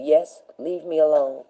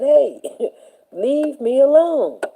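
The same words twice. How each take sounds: First: Said in the usual way. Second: High, slow, laughing "leave me alone"; laughing plea. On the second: Retold or imitated. Student laughing off a mocking teacher, amused plea. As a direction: brush her off with a laugh. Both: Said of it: "I said".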